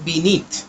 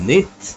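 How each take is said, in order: First: The word is said with both syllables. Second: The word is said without its first syllable. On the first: This is the full form of the word. "এখানে actual ওয়ার্ডটা হচ্ছে বিনিথ" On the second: A syllable is skipped to fit the poem's rhythm. "ছন্দ মেলানোর জন্য বা স্পিডে যখন পোয়েমটা পড়বো তখন আমরা বলবো অ্যান্ড নিথ"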